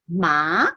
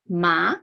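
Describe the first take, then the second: Both takes have the same delivery.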